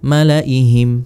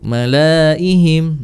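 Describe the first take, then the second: First: The vowel after the L is kept short. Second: The vowel after the L is held long. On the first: The speaker calls it right. "Maka malaihim dibaca malaihim" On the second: The speaker calls it wrong. "Biasanya dibaca panjang kalau dia berharokat fathah. Malaihim gitu"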